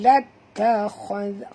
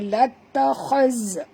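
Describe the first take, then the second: First: The final consonant is a soft 'dh' sound. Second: The final consonant is a 'z' sound. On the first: The speaker calls it right. "huruf zal ni lembut" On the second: The speaker calls it wrong. "Tak boleh baca lattakhaz. Ha, itu huruf zai"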